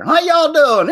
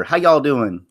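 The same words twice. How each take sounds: First: Loud, high Southern holler; over-the-top high-pitched Southern whoop; exaggerated Southern drawl. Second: Mild, casual Southern drawl; easygoing Southern greeting. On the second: Real, not acted. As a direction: ask it with a light Southern twang. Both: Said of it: "I just had a sudden drawl there".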